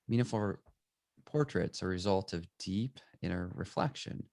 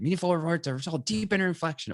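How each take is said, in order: First: The sentence is read softly and gently. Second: The sentence is read forcefully and aggressively. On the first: "or it could be" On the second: "Something we could read that kind of aggressively"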